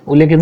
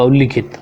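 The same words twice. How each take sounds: First: "उल्लेखित" with an e after the double l; wrong pronunciation. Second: "उल्लिखित" with an i after the double l; correct pronunciation. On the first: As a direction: say "उल्लेखित" as ul-le-khit. ("उल्लेखित" में ले, गलत उच्चारण) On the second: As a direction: say "उल्लिखित" as ul-li-khit. ("उल्लिखित" में लि, सही उच्चारण) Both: Shown as a demonstration. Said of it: "उल्लेखित नहीं, उल्लिखित होगा".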